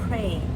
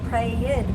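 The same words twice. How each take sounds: First: The word is said as one syllable. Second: The word is said as two syllables. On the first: The speaker calls it right. "Just one syllable" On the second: The speaker calls it wrong. "would be two syllables. That's wrong"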